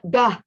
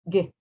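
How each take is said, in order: First: The g sound is followed by a vowel. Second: The g sound is said with no vowel. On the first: The speaker calls it wrong. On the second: The speaker calls it right.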